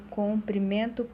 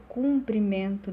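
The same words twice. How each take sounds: First: "comprimento" with O, as in com; O in first syllable. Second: "cumprimento" with U, as in cum; U in first syllable. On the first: Teacher contrasting two different words, "comprimento" with O. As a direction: say "comprimento" with a clear O vowel up front. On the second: Teacher contrasting two different words, "cumprimento" with U. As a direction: say "cumprimento" with a clear U vowel up front. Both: Shown as a demonstration. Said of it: "são definições diferentes".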